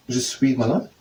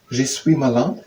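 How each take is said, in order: Both takes have the same delivery.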